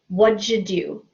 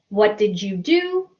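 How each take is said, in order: First: The words are run together quickly and reduced. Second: Each word is said separately and fully.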